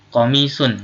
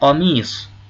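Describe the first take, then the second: First: The word ends with an -un sound. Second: The word ends without an -un sound. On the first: This is the full form. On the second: This is fine in conversation.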